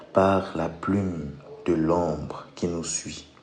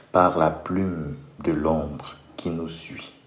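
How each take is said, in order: The two takes are said the same way.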